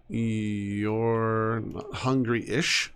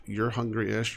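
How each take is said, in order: First: "hungry-ish" dragged out very slowly; stretched ish. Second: Said in the usual way. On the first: Shown as a demonstration. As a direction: drawl the whole "You're not hungry-ish". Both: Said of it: "Emphasis on the ish".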